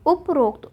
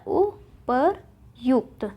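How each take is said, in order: First: उपरोक्त with an o before kt; the mistaken rokt ending in उपरोक्त; wrong form उपरोक्त. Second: उपर्युक्त broken into slow syllables; yukt, drawn out, ending उपर्युक्त; correct form उपर्युक्त. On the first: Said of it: "उपरोक्त नहीं होता". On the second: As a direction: say उपर्युक्त very slowly as u-par-yukt. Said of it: "उपर्युक्त होता है". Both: Shown as a demonstration.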